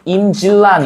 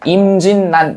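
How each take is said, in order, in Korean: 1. 가운데 자음은 L-L 겹 소리로 납니다. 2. 가운데 자음은 N-N 겹 소리로 납니다. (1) "그런데 그렇게 발음하지 않아요" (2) "실제로는 임진난 이렇게 발음한다"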